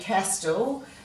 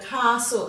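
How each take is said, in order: First: The T sound is clearly pronounced. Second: The T sound is left out entirely. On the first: "if you wanted to pronounce that T" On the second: "even if it is silent in this particular word"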